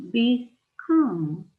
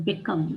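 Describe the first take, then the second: First: "become" with the first syllable BE stretched and stressed. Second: Said in the usual way. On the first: Shown as a demonstration. Teacher showing learners a wrongly stressed word, stress on BE in "become". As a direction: hit BE in "become", drawn out. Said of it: "If the stress sy-, syllable was be". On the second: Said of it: "become would be pronounced like".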